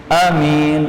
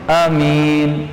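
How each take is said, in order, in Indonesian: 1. Vokal pertama pendek, yang kedua panjang. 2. Vokal pertama pendek, yang kedua panjang.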